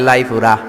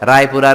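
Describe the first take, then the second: First: The word begins with an l sound. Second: The word begins with an r sound.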